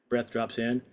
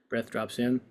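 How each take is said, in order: The two takes are said the same way.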